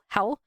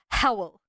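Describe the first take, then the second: First: The name is said with one syllable. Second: The name is said with two syllables. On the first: "usually his name is spelled H O W L" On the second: "Megan says Howl in a different way"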